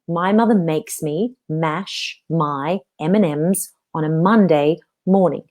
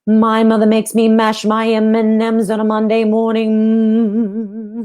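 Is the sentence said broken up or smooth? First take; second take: broken up; smooth. First: The sentence is broken into separate chunks. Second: The sentence flows smoothly in one breath. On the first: The speaker calls it wrong. "I'm not breaking it up like that" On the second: The speaker calls it right. "I'm actually making it very smooth"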